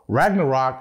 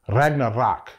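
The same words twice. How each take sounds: First: The R sounds are plain, not rolled. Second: The R sounds are rolled. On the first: The speaker calls it wrong. "Ragnarok is not pronounced that way" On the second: The speaker calls it right. "You gotta roll those R's"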